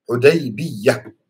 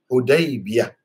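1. Bunyi y digandakan dan dibaca lebih panjang. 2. Bunyi y tunggal dan dibaca pendek. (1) "boleh dibaca dengan bertasydid ya-nya. Yani musyaddadah" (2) "boleh juga tanpa tasydid. Yani mukhaffafah"

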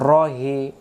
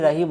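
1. প্রথম স্বরধ্বনিটি গোলাকার 'o' এর মতো শোনায়। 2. প্রথম স্বরধ্বনিটি খোলা 'a' এর মতো শোনায়। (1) "র করে উচ্চারণ বলবে রহি" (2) "এটাকে যদি রাহি রাহি বলে"

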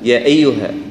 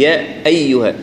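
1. الهمزة مخففة، تكاد تختفي. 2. الهمزة مضغوطة وتُسمع بوضوح. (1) "تسهيلها في غير محل تسهيل، مثلا" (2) "لا هي"

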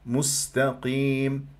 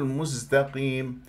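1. صوت s همس هوائي واضح. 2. صوت s مجهور مثل z. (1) "لذلك لابد من بيان همس همس السين" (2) "ممكن أنه تقول مستقيم"

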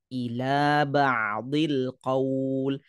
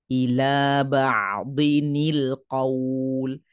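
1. Tidak ada bunyi n yang menghubungkan kata-kata. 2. Ada bunyi n tambahan yang menghubungkan kata-kata. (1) "contoh yang bacaan yang salah" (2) "Ada kedengaran huruf nun yang dituturkan"

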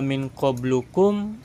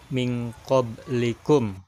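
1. Vokal setelah qabl adalah u. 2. Vokal setelah qabl adalah i. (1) "enggak min qablukum" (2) "tetapi min qablikum"

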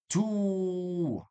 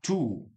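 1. الحركة ممدودة. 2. الحركة مقصورة.

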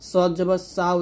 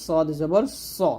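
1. শেষ স্বরটি একটি খোলা 'aa' ধ্বনি। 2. শেষ স্বরটি খোলা 'aa' নয়। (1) "উচ্চারণ করা যাবে না" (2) "বলতে হবে"

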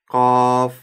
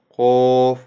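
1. Гласный открытый, губы не округлены. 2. Гласный огублённый, губы вытянуты вперёд. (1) "Правильно произносить" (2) "Старайтесь не вытягивать губы вперед"

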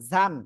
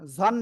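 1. স্বরধ্বনিটি খোলা শোনায়, a-এর মতো। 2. স্বরধ্বনিটি গোলাকার শোনায়, o-এর মতো। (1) "যা দুই জবর, ঝান" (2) "ঝন না"

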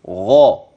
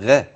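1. يُنطق الحرف ثقيلا، مع تفخيم. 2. يُنطق الحرف خفيفا، دون تفخيم. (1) "غين تفخم" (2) "لا تقل غا"

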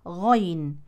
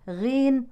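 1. يبدأ مفخماً بحركة 'a' مفتوحة. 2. يبدأ بحركة 'i'. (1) "بفتح الغين مع تفخيمها" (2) "لا بالكسر"

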